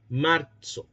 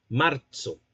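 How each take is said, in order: First: "Marzo" with ts, martso; medieval ts sound. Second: "marzo" slowly with ts, martso; "marzo" as martso, t then s; medieval ts sound. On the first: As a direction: give "Marzo" the old ts affricate. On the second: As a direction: say "marzo" with the affricate ts. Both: Shown as a demonstration. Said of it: "como con una T y una S".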